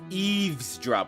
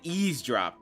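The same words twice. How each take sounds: First: The word is said with a v sound. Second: The word is said without a v sound. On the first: The speaker calls it right. "it's eavesdrop with a V" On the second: The speaker calls it wrong. "I always said eavesdrop"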